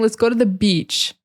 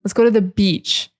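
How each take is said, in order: First: The vowel in beach is long and stressed. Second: The vowel in beach is long and stressed.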